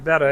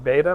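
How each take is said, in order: First: The first vowel sounds like 'bet'. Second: The first vowel sounds like 'bay'. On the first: This is the Latin way of saying it. "In Latin, uh, it would be" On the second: This is the Greek way of saying it. "In Greek, it would be"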